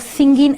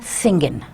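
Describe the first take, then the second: First: The word ends with a full ing sound. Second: The word ends with a shortened in sound. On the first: "the written word would be with an ing" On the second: "we would uh, shorten it to singin"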